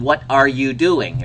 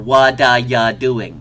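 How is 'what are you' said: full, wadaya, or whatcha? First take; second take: full; wadaya. First: Every word is said fully and separately. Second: The opening words blend into one word, wadaya. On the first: "I'd write that up on the board"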